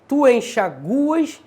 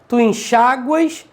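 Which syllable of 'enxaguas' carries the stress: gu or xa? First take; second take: gu; xa. First: The stress falls on the syllable gu. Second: The stress falls on the syllable xa. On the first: "sem o acento" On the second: "paroxítona acentuada, terminada de tom crescente"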